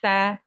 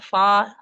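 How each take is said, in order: First: The letter sounds thin and light. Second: The letter sounds thick and heavy. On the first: The speaker calls it right. "sa tipis" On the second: The speaker calls it wrong. "fa itu tebal"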